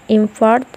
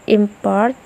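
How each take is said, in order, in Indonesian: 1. Tekanannya ada di suku kata terakhir. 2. Tekanannya ada di suku kata pertama. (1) "and the verb on the last syllable" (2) "the noun will, be will tend to be stressed on the first syllable"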